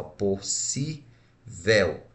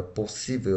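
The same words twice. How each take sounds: First: "possível" very slow, syllable by syllable; separado em sílabas. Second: Said in the usual way. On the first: Shown as a demonstration. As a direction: break "possível" into pos, si, vel with pauses. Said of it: "quando eu separo a palavra possível". ("possível" sílaba por sílaba, bem devagar) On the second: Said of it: "quando eu separo a palavra".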